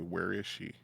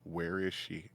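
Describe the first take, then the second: No difference in how they are said.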